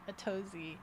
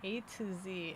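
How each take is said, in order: First: It is said as one word, 'a-TOE-zee'. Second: It is said as three words, 'A to Z'. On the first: This is how people read the name. "people pronounced it a Tozy" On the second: This is the name as originally intended. "his original name being A to Z"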